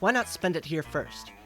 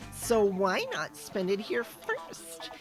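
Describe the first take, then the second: First: It is said in a plain, normal voice. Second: It is said in a put-on cat voice.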